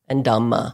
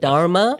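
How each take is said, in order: First: The word is said without an r sound. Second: The word is said with an r sound. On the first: This is the Pali form of the word. "the Pali language" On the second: This is the Sanskrit form of the word. "So the dharma with an R"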